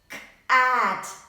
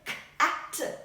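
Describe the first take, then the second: First: The middle vowel is drawn out long. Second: The word is said at normal speed. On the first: "we have to give a stretch to the middle vowel" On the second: "If we start saying it in a normal way"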